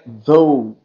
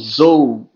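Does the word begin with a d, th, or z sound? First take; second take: th; z. First: It begins with a voiced th sound. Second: It begins with a buzzing z sound. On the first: The speaker calls it right. "mas não é, é dou" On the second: The speaker calls it wrong. "ou então zou"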